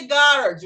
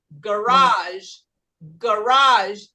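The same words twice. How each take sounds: First: "garage" with GA punched, second syllable weak; first-syllable stress. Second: "garage" slow, RAGE long and strong; French-style final stress. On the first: Teacher shows how the rule would sound, first-syllable stress. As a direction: hit GA in "garage", then drop. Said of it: "quase sempre a primeira sílaba". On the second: Teacher shows the real French-derived pronunciation, final-syllable stress. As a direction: stretch and punch the second syllable of "garage". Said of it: "Por ser francesa, a gente fala". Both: Shown as a demonstration.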